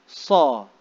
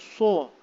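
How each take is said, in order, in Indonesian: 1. Itu diucapkan dengan mulut dibiarkan terbuka. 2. Itu diucapkan dengan bibir dimajukan ke depan. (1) "dan mulut tu buka" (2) "bukan bukan muncul kan, bukan so"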